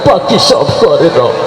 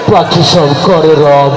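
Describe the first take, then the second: First: It is recited in a crying, tearful voice. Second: It is recited in a frightening, menacing voice. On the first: "ও কানতে কানতে কয়" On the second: "তারও বেশি ভয়ঙ্কর শোনা গেল"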